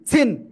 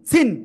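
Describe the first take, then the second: No difference in how they are said.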